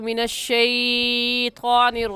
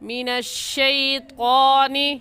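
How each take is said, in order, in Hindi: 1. 'shai' ध्वनि को लंबा खींचकर बोला जाता है। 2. 'shai' ध्वनि छोटी और नरम बोली जाती है। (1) "अक्सर हजरात ... कह जाते हैं, जो कि गलत है" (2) "लीन को खींच कर नहीं पढ़ते। तो ऐसे पढ़ेंगे"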